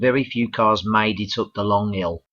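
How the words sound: It is said in a Birmingham accent. "from Wales we go to Birmingham"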